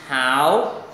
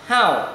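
First: The pitch rises from mid to high. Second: The pitch falls sharply from high to low. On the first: "Thanh 2 đọc là hảo" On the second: "Thanh 4 đọc nhấn mạnh là how"

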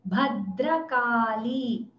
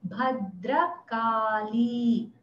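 No difference in how they are said.

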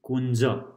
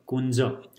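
Both takes have the same delivery.

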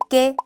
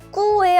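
First: The u vowel is silent before the e. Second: The u vowel is pronounced before the e. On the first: The speaker calls it right. "이렇게 읽으면 안 되고 깨" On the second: The speaker calls it wrong. "꾸에 아닌가요? 하는 분들도 많아요"

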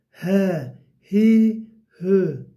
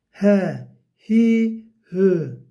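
No difference in how they are said.

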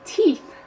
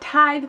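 First: The word is said like 'teeth'. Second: The word is not said like 'teeth'. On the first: The speaker calls it wrong. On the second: The speaker calls it right.

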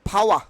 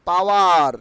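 First: The final r is silent. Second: The final r is pronounced. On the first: The speaker calls it right. "আর will be silent হেয়ার" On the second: The speaker calls it wrong. "Not পাওয়ার, আজকের থেকে আমরা পাওয়ার বলবো না"

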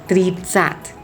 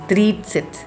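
First: The last syllable has an 'a' vowel. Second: The last syllable has an 'e' vowel. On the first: The speaker calls it wrong. "ไม่ได้อ่านว่า" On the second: The speaker calls it right. "เลยอ่านเป็น"

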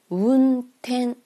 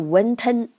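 First: The first syllable is a small closed-mouth 'un' sound. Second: The first syllable starts with a Chinese-style 'w' glide. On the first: The speaker calls it right. "你就嘴闭上就行了" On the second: The speaker calls it wrong. "不是汉语的ten 或者说wen 这样的音"

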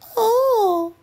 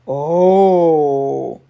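First: It is a short, high, thin squeak. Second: It is a long, loud, low groan.

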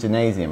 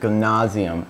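First: It is pronounced with an American English accent. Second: It is pronounced with a German accent.

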